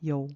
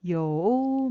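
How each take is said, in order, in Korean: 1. 음높이가 내려가기만 하고 올라가지 않습니다. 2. 음높이가 내려갔다가 다시 올라갑니다. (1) "요 올라가는 게 없고요. 내려갑니다" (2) "이렇게 발음하려면 굉장히 어렵잖아요"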